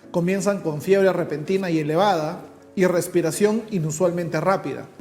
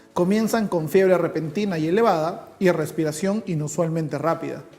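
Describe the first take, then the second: Both takes have the same delivery.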